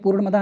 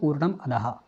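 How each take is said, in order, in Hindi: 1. दोनों शब्द आपस में मिलाकर एक ही शब्द की तरह बोले गए हैं। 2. दोनों शब्द एक विराम के साथ अलग-अलग बोले गए हैं। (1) "मैंने पूर्णमदः नहीं पढ़ा" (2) "मैंने इसलिए पढ़ा इसको पूर्णम अधहा"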